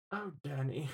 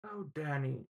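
First: Soft, hushed mock teacher sigh; imitating teacher. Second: Soft hushed mock teacher voice; imitating teacher. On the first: Student recalling teacher's sigh at his paper, soft mock voice. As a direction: breathe his name like a disappointed teacher. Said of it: "she was like". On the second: Student mimicking teacher's sigh at his paper, soft mock voice. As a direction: sigh the name gently. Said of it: "that's not her voice".

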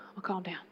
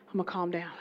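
First: Whispering to settle himself; hushed whisper to himself; whispered calm down. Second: Calming down. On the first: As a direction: breathe it out unvoiced. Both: Real, not acted.

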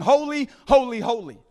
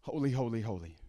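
First: HOLY, HOLY punched high and loud, the last "holy" dropping away; emphatic repetition. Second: Low, very soft "Holy, holy, holy", sinking at the end; hushed reverence. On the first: Shown as a demonstration. Preacher showing how heaven emphasizes one word, emphatic "Holy, holy, holy". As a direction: cry out "Holy, holy" for maximum emphasis, then fall. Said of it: "the ultimate way to try to make your point". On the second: Acted. Preacher voicing worship before God, hushed "Holy, holy, holy". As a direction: murmur "Holy, holy, holy" in awe.

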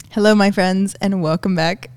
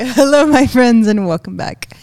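First: Holding back a laugh; fighting off giggles; trying not to laugh. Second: Said in the usual way. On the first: Real, not acted. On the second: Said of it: "You're making me nervous".

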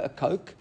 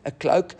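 First: "coke" said for "cloak", dropping the l; quick stumble, "a coke" instead of "a cloak"; slip of the tongue. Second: Said in the usual way. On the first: Shown as a demonstration. Teacher stumbles on the word for a coat, "coke" without the l.

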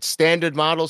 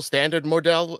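First: Standard model with "MAH-dul"; English-style pronunciation. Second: Standard model with model as "mor-DELL"; German-style pronunciation. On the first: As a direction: say model in standard model the everyday English way, short ending. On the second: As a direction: say model in standard model with a long first vowel and "dell" ending. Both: Shown as a demonstration. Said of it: "give me some clarity on that".

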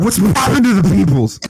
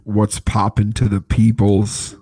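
First: Higher, louder, pumped-up greeting; hyped greeting. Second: Slow, limp, low-energy greeting; lifeless greeting. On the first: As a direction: shout it out with real energy. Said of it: "it's a little bit better". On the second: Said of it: "that was so dookie". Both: Real, not acted.

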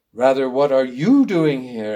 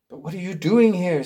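First: YOU punched in a turned-back question; stress on YOU. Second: Said in the usual way. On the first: Acted. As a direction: throw the question back, leaning hard on YOU. Robert turns her question back.

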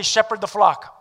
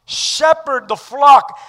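First: Said in the usual way. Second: Loud slow proclamation; emphatic. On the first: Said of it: "Everyone say". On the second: Acted. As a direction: ring out flock. Preacher repeats verse.

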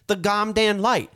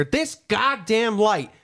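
First: Put-on child proudly repeating the swear, slowly; slow mock curse. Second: Drawn-out, fed-up grumble; a slow, weary retold swear; dad's slow exasperated curse. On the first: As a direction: kid repeating the curse, laughing. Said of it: "He says". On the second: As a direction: drag out the curse, slowly. Dad cursing again, slowed.

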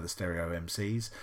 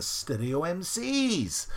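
First: Said in the usual way. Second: Put-on high, drawn-out Welsh accent. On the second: Quiz host giving an answer, in a Welsh accent. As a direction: put on a Welsh accent with a long rising-falling ending. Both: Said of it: "I do that in a Welsh accent".

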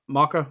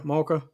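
First: "mocha" with an open "mock" first syllable; trying out pronunciation. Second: "mocha" with a long "more" first syllable; alternative pronunciation. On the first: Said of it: "pronounce stuff". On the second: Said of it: "you're phonetically saying it". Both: Shown as a demonstration.

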